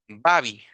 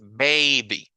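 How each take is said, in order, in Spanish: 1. La primera vocal no es el sonido largo de la A. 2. La primera vocal es el sonido largo de la A. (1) "No lo voy a pronunciar como baby, ¿verdad? Porque ese sería incorrecto. Ese no es el sonido largo de la A" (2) "es baby"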